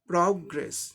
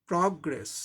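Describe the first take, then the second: First: The stress is on the first syllable. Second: The stress is on the first syllable.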